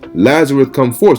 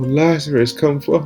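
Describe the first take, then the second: First: It is said loudly, as a strong command. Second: It is said weakly, in a frail whimpering voice. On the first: He is commanding Lazarus. The speaker calls it right. "It says he cried with a loud voice" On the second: He is a frail, weeping man. The speaker calls it wrong. "the way they make it look is like he's just like, you know, like this little"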